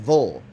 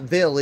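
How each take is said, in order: First: The syllable is said with a reduced vul sound. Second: The syllable is said with a clear vill sound. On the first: The speaker calls it right. "It's Vol" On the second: The speaker calls it wrong. "Not Ville either"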